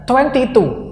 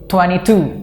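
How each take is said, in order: First: The t sound in twenty is pronounced. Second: The t sound in twenty is dropped.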